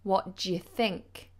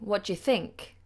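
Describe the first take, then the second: First: The word you is said in a weak form. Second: The same.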